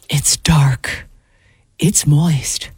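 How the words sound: It is said slowly in a breathy voice.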